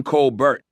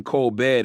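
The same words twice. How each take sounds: First: "Colbert" with the T sounded at the end; hard final T. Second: "Colbert" with a silent T, like coal-bear; French-style "Colbert", ending in an open "bear"; French pronunciation. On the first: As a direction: say "Colbert" like coal-burt. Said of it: "We pronounced his name Colbert". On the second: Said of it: "not the French pronunciation". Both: Shown as a demonstration.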